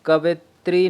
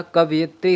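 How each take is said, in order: First: कवित्री with no य, straight from व to त्री; wrong form. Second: कवयित्री with a clear यि after व; correct form. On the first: Teacher showing students a misspelt word, कवित्री without the य. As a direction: say कवित्री short one syllable, no य glide. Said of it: "नहीं होता". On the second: Teacher giving students the correct word, कवयित्री with its यि sounded. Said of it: "होता है". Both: Shown as a demonstration.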